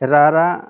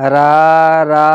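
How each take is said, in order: First: The vowels are short and quick. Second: The vowels are drawn out long.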